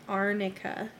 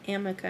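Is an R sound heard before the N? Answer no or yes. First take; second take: yes; no. First: It is said with an R before the N. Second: It is said with an M and no R. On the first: The speaker calls it right. "it's Arnica" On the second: The speaker calls it wrong. "it's not Amica"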